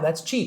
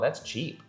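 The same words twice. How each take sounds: First: It is said in a pleased, approving tone. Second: It is said in a dismissive, disparaging tone. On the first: The low price is a good thing. "obviously by your tone, you are indicating that you're you mean it good" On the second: The item looks low in quality. "In that way it's like, oh, yasupoi"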